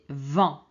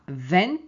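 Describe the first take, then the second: First: The vowel is nasal, with no N sound. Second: The vowel is oral, with an N sound. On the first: The speaker calls it right. "c'est vent" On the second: The speaker calls it wrong. "ce n'est pas vent, non"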